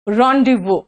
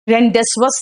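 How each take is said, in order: First: The z and s sounds are left silent. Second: The z and s sounds are clearly pronounced. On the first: The speaker calls it right. "इसका pronunciation है रॉन्डिवो" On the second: The speaker calls it wrong. "रेंडेसवस नहीं है"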